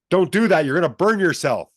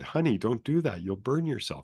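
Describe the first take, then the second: First: It is said loudly and sharply. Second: It is said softly and gently.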